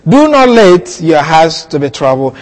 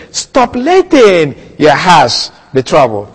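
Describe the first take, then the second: First: Said in the usual way. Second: "Stop letting" said slowly and firmly, weight on "letting"; preacher giving the full Greek sense, "Stop letting" slow and pressed; stress on Stop letting. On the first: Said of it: "That is what I read". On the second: Shown as a demonstration. "Stop letting your hearts be troubled" with slow firm weight on "Stop" and "letting". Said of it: "when I translate it fully and say".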